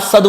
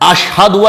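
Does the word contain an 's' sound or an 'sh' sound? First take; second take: s; sh. First: The word is said with an 's' sound. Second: The word is said with an 'sh' sound. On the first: The speaker calls it wrong. "असदु अल्लाह कह रहा है" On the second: The speaker calls it right. "अशहदु अल्लाह की जगह"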